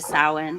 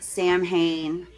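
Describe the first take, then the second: First: The word is said unlike its spelling. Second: The word is said following its spelling. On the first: This is how it is supposed to be said. The speaker calls it right. "which it is supposed to be" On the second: This is how the movies say it. The speaker calls it wrong. "they pronounce it Sam Hain in these movies"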